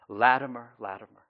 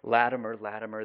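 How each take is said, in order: First: It is said louder, out to a crowd. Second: It is mumbled quietly under the breath.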